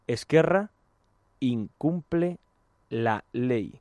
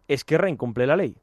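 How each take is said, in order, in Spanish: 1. Se pronuncia un poco más despacio. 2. Se pronuncia a un ritmo normal.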